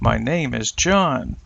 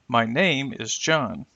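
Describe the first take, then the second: First: One focus word carries the main stress. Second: Several content words carry stress. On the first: "Now let's try with a focus word" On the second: "let's start with the stressed content words"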